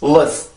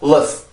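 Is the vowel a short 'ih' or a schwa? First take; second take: schwa; schwa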